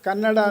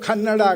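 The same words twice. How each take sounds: First: The first consonant is said without aspiration. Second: The first consonant is said with aspiration. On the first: The speaker calls it right. "ಕನ್ನಡ ಅನ್ನೋದು" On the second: The speaker calls it wrong. "ಆಗತ್ತೆ"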